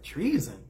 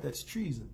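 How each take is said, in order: First: Imitated incredulous echo; mock disbelief. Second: Softer imitated verdict, falling; understated accusation. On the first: Jaime hears himself accused by Cersei, mock incredulous echo. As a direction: echo the charge as if baffled. Acts out Jaime echoing the charge. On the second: Cersei accuses Jaime of betraying her, quiet imitated accusation. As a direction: drop the charge quietly, as a retold line.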